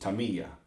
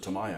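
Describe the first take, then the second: First: The middle syllable sounds like 'me'. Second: The middle syllable sounds like 'my'. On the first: The speaker calls it right. "my dad always pronounced it Tamiya" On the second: The speaker calls it wrong. "it's wrong, but we always pronounce it Tamaya"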